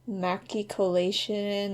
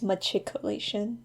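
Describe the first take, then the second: First: The word begins with a hard 'maki' sound. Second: The word begins with a 'machi' sound instead. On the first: The speaker calls it wrong. "I just realized I pronounced that wrong" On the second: The speaker calls it right. "I think it's machicolation, not maki"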